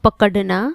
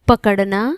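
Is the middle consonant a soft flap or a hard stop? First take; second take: stop; flap. First: The middle consonant is a hard stop. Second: The middle consonant is a soft tongue flap. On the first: The speaker calls it wrong. "अगर ये नुक्ता हट जाए ... जो गलत है" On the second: The speaker calls it right. "द्विगुण व्यंजन का उच्चारण ड ढ के मुकाबले नरम होता है"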